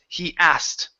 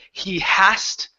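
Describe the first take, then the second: First: Asked begins directly with its vowel sound. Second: Asked begins with an added h sound. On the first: The speaker calls it right. "it's he asked" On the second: The speaker calls it wrong. "Take off the h sound at the beginning of asked. So instead of he hast"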